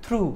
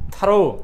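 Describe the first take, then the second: First: One syllable, ending in an 'oo' sound. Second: Two syllables, 'tha' then 'ro'. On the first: The speaker calls it wrong. "এক teacher উচ্চারণ করতেছে থ্রু" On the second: The speaker calls it right. "এটা হলো থারো"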